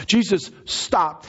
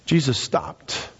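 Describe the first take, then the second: First: Slow, high-pitched proclamation; emphatic preaching. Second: Slow, weighty delivery; measured statement. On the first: Preacher repeating the turning point, high emphatic proclamation. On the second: Preacher telling the turning point, slow and measured. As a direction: let each word land slowly. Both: Real, not acted.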